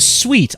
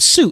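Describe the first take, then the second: First: The word is said like 'sweet'. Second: The word is said like 'suit'. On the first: The speaker calls it right. "It's a suite" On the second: The speaker calls it wrong. "It's not a suit"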